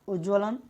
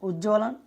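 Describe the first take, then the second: No difference in how they are said.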